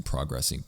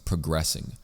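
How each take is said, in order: First: Progressing said as PRAH-gressing; open, full AH at the start of progressing; odd pronunciation. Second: Said in the usual way. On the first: Shown as a demonstration. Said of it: "really weird way of pronouncing". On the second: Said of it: "weird way of pronouncing progressing".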